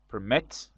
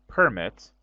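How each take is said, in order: First: The stress is on the second syllable. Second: The stress is on the first syllable. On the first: It is the verb meaning to allow. "with stress on second syllable, is the verb" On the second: It is the noun meaning an official permission. "with the stress on the first uh, syllable, is a noun"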